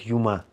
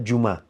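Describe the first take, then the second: First: The word begins with a 'y' sound. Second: The word begins with a 'dj' sound. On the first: This is how the Kuban Nogais say it. "они говорят юма" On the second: This is how the speaker's own community says it. "не говорят джума"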